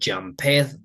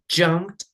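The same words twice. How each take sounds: First: The ending is said as an extra syllable. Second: The ending adds no extra syllable. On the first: The speaker calls it wrong. "no es que decimos" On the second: The speaker calls it right.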